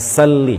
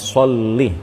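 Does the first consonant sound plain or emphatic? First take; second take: plain; emphatic. First: The first consonant is a plain 's' sound. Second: The first consonant is a heavy emphatic 's'. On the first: The speaker calls it wrong. "jangan dibaca sa" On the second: The speaker calls it right. "Yang benar adalah sod"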